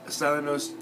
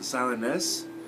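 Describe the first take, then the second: First: The last syllable sounds like 'nose'. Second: The last syllable sounds like 'nus'. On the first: The speaker calls it wrong. "Silenos just didn't feel quite right" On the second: The speaker calls it right. "I pronounced it Silenus"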